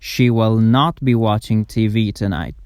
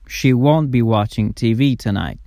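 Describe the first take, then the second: First: Will not is said as two full words. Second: Will not is contracted to one syllable, won't.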